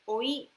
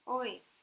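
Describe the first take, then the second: First: It is said with a changed intonation. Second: It is said with its usual intonation. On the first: It means nephew. "If you change the intonation, it means nephew" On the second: It is a call like hey. "Oi is like oi. Like hey"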